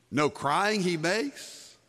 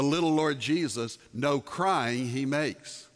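First: Slow, rising, doubting question; incredulous question. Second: Slow, deliberate reading of the carol line; slow lyric quote. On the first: Preacher questioning the carol's claim before his congregation, incredulous rising tone. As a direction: hold up the line as if it were absurd. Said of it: "Of course he cried". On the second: Preacher quoting the carol line to his congregation, slow and deliberate. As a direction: lay out the carol words slowly, word by word. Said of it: "That's a ridiculous statement". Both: Shown as a demonstration.

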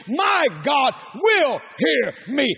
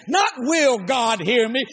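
First: "will" slow and firm, ending up; stress on will. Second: "Not" leaned on, slow; stress on not. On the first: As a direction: plant "will" as a promise. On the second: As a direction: push "Not" against the question. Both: Shown as a demonstration.

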